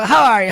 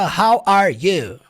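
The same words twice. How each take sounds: First: The words are run together quickly and smoothly. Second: The words are said one by one, kept apart. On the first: The speaker calls it right. "Ele fala how are you" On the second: The speaker calls it wrong. "ele não fala how are you"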